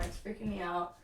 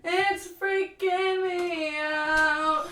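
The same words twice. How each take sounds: First: Said in the usual way. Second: Higher, louder, very slow mock wail; drawn-out loud wail. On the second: Streamer to chat about her uncomfortable bra, drawn-out mock wail. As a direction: stretch every word out in a big mock wail. Repeats line, stretched and loud.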